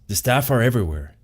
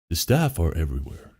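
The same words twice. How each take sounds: First: It is said in the speaker's normal voice. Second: It is said in a Morpheus impression voice.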